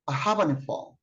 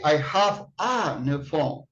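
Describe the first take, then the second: First: 'Have a' runs together as one linked unit. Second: Each word is said separately, without linking. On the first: The speaker calls it right. "you say" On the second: The speaker calls it wrong. "You don't say"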